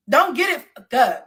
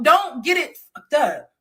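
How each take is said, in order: First: Said in the usual way. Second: Slow, deliberate warning; firm slow warning "don't get it fucked up". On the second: Real, not acted. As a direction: drag each word out as a threat.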